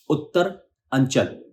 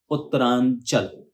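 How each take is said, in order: First: उत्तर अंचल said slowly as two parts, stress on Uttar; split slowly. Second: Uttaranchal said slowly as one word; joined word. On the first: Teacher splitting the word for students, slow and deliberate. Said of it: "जैसे भी आपको सही और आसान लगे वैसे जोड़कर बोलें". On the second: Teacher joining the word for students, slow. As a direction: glide Uttaranchal together, slowly. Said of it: "जोड़कर बोलें". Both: Shown as a demonstration.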